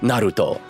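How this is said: It is said with a Japanese accent. "pronounce, like, every character name ... with a Japanese accent"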